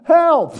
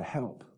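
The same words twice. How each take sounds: First: High, loud shout for help; crying out. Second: Soft, small plea for help; quiet inward cry. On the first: Acted. Preacher acting the prophet's prayer for help, crying out. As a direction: cry it out suddenly at full voice. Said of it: "he cried out". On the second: Shown as a demonstration. Preacher showing listeners that cry, quietly pleading. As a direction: say it softly, as a private prayer. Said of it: "just that cry".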